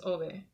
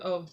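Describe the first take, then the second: First: The vowels are pronounced as in Spanish. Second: The vowels are not pronounced as in Spanish. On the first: "I will always see vowels in like the Spanish, the Spanish sound" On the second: "I've heard Ove"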